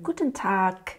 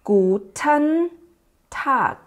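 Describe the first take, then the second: First: The phrase is said quickly, with a melody. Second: The phrase is said slowly, word by word.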